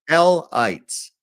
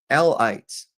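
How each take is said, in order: No difference in how they are said.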